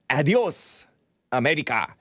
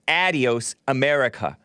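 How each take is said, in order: First: Adios is pronounced in a non-American way. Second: Adios is pronounced in an American way. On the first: The speaker calls it wrong. "it's not Adios America" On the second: The speaker calls it right. "Because you say it the American way"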